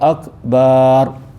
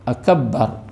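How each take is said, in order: First: The vowel after the b is lengthened. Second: The b sound is doubled and held. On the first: "Tambah huruf alif selepas huruf ba" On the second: "jika ditasdikkan huruf ba pada akbar"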